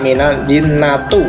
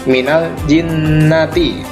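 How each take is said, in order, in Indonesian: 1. Kata terakhir berakhir dengan bunyi u. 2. Kata terakhir berakhir dengan bunyi i. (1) "tidak boleh dibaca" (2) "Kita baca minal jinnati"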